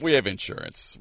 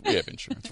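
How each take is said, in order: First: Said in the usual way. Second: Much higher, playful repeat; high mock reassurance. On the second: Shown as a demonstration. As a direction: pitch it way up, joking.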